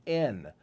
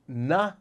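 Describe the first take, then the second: First: Said in the usual way. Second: N sounded out as "nuh". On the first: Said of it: "or an N". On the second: Shown as a demonstration. Memory coach teaching the sound for two, N said "nuh". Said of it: "the N sound".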